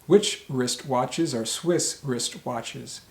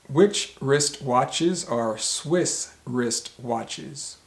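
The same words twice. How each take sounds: First: The sentence is said at a faster pace. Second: The sentence is said at a slower pace.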